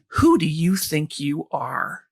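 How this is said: The question sounds harsh and accusing. It attacks the person for daring to try. The speaker calls it wrong. "that voice that's so cruel and critical"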